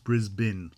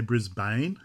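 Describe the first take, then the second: First: The last syllable is a short 'bin'. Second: The last syllable has a full vowel. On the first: The speaker calls it right. "it's Brisbane. B I N" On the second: The speaker calls it wrong. "Don't say Brisbane"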